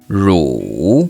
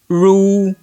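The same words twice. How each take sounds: First: The pitch dips low, then rises. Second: The pitch stays high and level.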